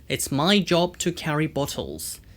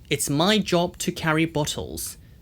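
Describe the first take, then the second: Both takes have the same delivery.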